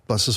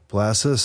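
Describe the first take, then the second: First: The phrase is said quickly and rushed. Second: The phrase is said slowly and drawn out. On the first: The speaker prays this way. "when I pray, I'm like" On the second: Other people pray this way. "how slow they read"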